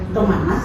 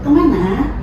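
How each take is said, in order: First: The final syllable is short and level. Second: The final syllable is long and swinging. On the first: This is the Kuala dialect. "itu bahasa Kuala" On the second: This is the Hulu Sungai dialect. "kalau bahasa Bagas Ulu"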